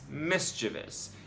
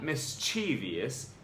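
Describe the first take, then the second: First: The word is said with three syllables. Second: The word is said with four syllables. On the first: "it really has only three" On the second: "had four syllables when it really has only three. It's not"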